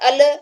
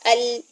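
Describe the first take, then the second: First: The L is released abruptly with a bounce. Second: The L is held for a moderate length. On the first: The speaker calls it wrong. "फौरन से छोड़ेंगे तो इसमें कलकला हो जाएगा" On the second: The speaker calls it right. "Normal सी मिड वाली कंडीशन रखेंगे"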